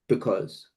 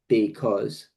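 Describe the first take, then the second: First: The sounds are reduced into one smooth movement. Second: Each sound is articulated fully and separately. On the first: The speaker calls it right. "just go because. You know what I mean? Just one shape" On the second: The speaker calls it wrong. "instead of saying like because"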